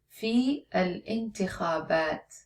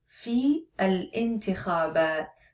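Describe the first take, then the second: No difference in how they are said.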